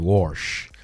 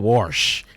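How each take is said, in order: First: It is said in a rural country accent. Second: It is said in a plain accent.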